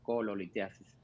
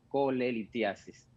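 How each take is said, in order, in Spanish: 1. La segunda sílaba se pronuncia 'lo'. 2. La segunda sílaba se pronuncia 'le'. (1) "no cololitiasis" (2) "El término correcto realmente es colelitiasis"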